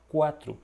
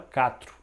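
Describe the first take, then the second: First: It begins with a 'kw' sound. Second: It begins with a plain 'k' sound. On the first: The speaker calls it right. "você fala quatro" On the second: The speaker calls it wrong. "Você não fala quatro"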